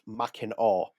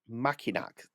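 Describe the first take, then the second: First: The word ends with an 'aw' sound. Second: The word ends with a 'k' sound. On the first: This is how the name is actually said. The speaker calls it right. "it's pronounced Mackinac" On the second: This is how the spelling suggests it is said. The speaker calls it wrong. "that is written"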